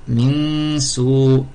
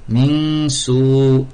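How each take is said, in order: The two takes are said the same way.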